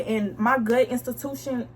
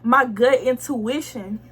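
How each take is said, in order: First: Saying "gut institution" instead of intuition, unaware; "institution" in place of "intuition", said without noticing; a natural flub, "my gut institution"; slip of the tongue. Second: Slow, careful "intuition" after finding the word; correcting herself slowly, "My gut intuition"; self-correction. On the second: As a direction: fix it: "gut intuition", said deliberately. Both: Real, not acted. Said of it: "hold on, what's the word?".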